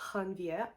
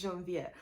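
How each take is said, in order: First: The name begins with a breathy H sound. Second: The name begins with a soft J sound. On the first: The speaker calls it wrong. "sees a J and then like pronounce that the Spanish way" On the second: The speaker calls it right. "the male main character's name is Janvier"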